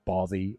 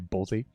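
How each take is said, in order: First: The middle consonant is a th sound. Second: The middle consonant is a z sound. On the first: This is how people in Scotland usually say it. "Scotland they usually say Bothy" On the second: This is how Americans usually say it. "with our American accent, we usually say Bozy"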